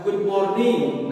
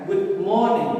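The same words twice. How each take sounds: First: "morning" stressed wrongly on its last syllable, NING; misplaced stress. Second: "morning" punched on MOR, falling after; stress on MOR. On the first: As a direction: drag out the end of "morning". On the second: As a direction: hit the M of "morning". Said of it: "jadi penekanan suaranya di huruf M". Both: Shown as a demonstration.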